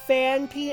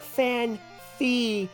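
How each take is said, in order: First: The second syllable starts with a p sound. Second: The second syllable starts with an f sound. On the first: The speaker calls it right. "it was Fanpy" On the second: The speaker calls it wrong. "and not Fan-Fee"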